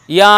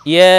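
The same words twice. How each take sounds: First: ইয়া with a broad open "aa"; wide back vowel on ইয়া; wrong open ya. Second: ইয়া as a long fronted "yae"; long, thin front vowel on ইয়া; tongue-to-palate ya. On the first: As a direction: say ইয়া as "yaa". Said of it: "ইয়া না হয়". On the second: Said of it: "জিহ্বার মধ্যখান ওপরে তালুর সাথে লাগিয়ে". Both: Shown as a demonstration.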